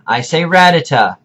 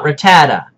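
First: Ratata said as RAT-a-ta, stress first; RAT-a-ta, first syllable stressed; Dexter-style ratata, RAT-a-ta; correct ratata. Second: Ratata said as ruh-TAD-a, stress in the middle; mock ratata as ruh-TAD-a; the wrong ratata, stress on TAD. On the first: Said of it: "When I say ratata". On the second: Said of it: "not ratata". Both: Shown as a demonstration.

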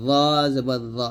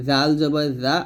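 First: Heavy dh, rounded o in "র জবর র"; thick za. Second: Light tongue-tip dh in "জাল জবর জা"; thin dhal. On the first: Teacher contrasting two letters, heavily pronounced "র জবর র". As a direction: say "র জবর র" as thick tongue-tip dh. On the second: Teacher contrasting two letters, thinly pronounced "জাল জবর জা". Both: Shown as a demonstration. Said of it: "মোটো হবে".

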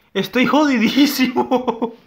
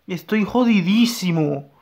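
First: Higher, louder, slow mock wail; mock-dramatic wail at the losing battle; mock despair. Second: Said in the usual way. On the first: Real, not acted. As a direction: overplay the despair. Lamenting losing the fight.

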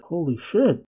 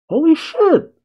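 First: Stunned murmur. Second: Holy shit! much higher and louder, a real yelp; shocked outburst. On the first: Viewer reacting to the grandpa's death, stunned quiet. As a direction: let it slip out under your breath. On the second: Viewer realizing the grandpa really died, shocked yelp. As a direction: blurt it out in sudden shock. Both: Real, not acted.

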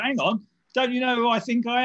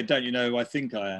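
First: Higher, louder self-important protest; hammed-up "don't you know who I am" protest; mock indignant. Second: Chuckling over the twisted catchphrase "Don't you know who I think I am?"; amused, self-mocking delivery; laughing joke. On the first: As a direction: play the outraged VIP being refused. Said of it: "It's like". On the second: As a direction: say it as a joke on yourself. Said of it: "I'd be more likely to say".

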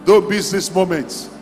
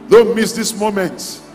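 The two takes are said the same way.

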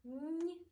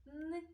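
First: "Н" palatalized, like нь; isolated soft "Н" sound. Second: "Н" as a hard, non-palatal hum; isolated hard "Н" sound. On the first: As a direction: hold "Н" softened, as before an і. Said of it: "а іноді м'яким". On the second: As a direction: hold "Н" firm, tongue not softened. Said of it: "Іноді ми чули його твердим". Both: Shown as a demonstration.

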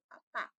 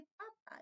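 First: "papá" with the final PÁ punched; "papá" stressed at the end, as the written accent asks; stress on last syllable. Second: "papa" stressed on PA at the start; the unaccented word "papa", soft and front-stressed; stress on first syllable. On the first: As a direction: say "papá" leaning hard and louder on the end. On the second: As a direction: say "papa" with the first syllable high, the last dropped. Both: Shown as a demonstration. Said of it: "no quiero que diga papa".

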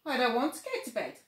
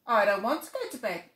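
First: Put-on higher, louder, fast child voice; a sulky little cub; little tiger. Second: Put-on louder child voice, bold; brave little tiger. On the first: First take, whispered per narration. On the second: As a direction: declare it bravely. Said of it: "said Little Tiger bravely".

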